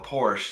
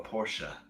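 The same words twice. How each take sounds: First: The word ends without a final vowel sound. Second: The word ends with a final vowel sound. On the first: The speaker calls it wrong. "don't drive a Porsche" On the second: The speaker calls it right. "you drive a Porsche"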